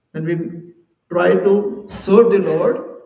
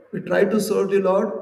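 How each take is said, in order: First: Slow and louder, each word weighed; slow emphatic. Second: Said in the usual way. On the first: Shown as a demonstration. Teacher stressing how to serve the Lord, slow and loud. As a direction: lean on it slowly to make the point.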